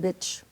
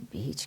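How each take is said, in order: First: The vowel is short, like in 'bit'. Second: The vowel is long, like in 'beet'. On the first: It imitates how a Spanish-speaking parent said it. The speaker calls it wrong. "Let's go and have a nice swing at the" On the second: It is the standard English way to say it. The speaker calls it right. "can't you say beach?"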